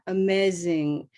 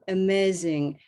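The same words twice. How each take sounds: First: The stressed vowel stays flat and short. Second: The stressed vowel stays flat and short.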